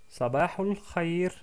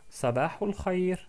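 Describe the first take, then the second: No difference in how they are said.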